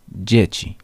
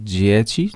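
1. Pierwszy dźwięk to polskie 'dzi'. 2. Pierwszy dźwięk nie jest polskim 'dzi'. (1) "tylko dzieci" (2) "Nie dzieci"

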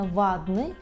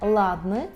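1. Слово починається зі звуку V. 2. Слово починається з чіткого звуку L. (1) "це не вадний" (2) "Це не ладний"

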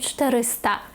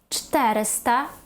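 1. Наголос на передостанньому складі. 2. Наголос на третьому з кінця складі. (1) "не 400" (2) "ставимо наголос не на другий склад з кінця, а на третій"

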